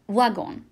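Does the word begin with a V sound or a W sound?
W sound. The word begins with a W sound. This is how it is said in Belgium. "en Belgique, c'est prononcé comme W"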